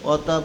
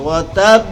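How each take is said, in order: First: The final b is stopped without a strong bounce. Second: The final b bounces out with strong force. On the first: The speaker calls it wrong. "অধিকাংশ মেজরিটি লোকেরা কি পড়ে অতাব কয়, বারে যজন দিয়া পড়ে" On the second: The speaker calls it right. "জোরে বাড়ি খাবে, জোরে ধাক্কা লাগবে"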